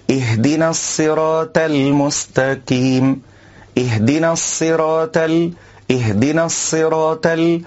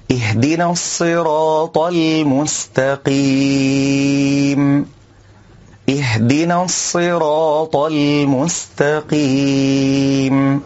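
First: الصراط with س for ص and ت for ط, wrong; sin and ta. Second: الصراط with heavy ص and ط, slow recitation; correct tafkhim. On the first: Teacher imitating the س and ت mistake. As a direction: swap ص to س in الصراط. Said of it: "إبدال الصاد سينا". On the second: Teacher reciting the corrected verse. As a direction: give الصراط full heavy ص and ط. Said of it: "نقول". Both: Shown as a demonstration.

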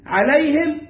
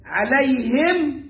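First: عليهم at normal pace with a كسرة on the هاء. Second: عليهم stretched very slowly with a كسرة on the هاء; slow, careful. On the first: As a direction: say عليهم, ʕalehim, briskly. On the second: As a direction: drag out عليهم, ʕalehim. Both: Shown as a demonstration. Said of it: "بكسر الهاء".

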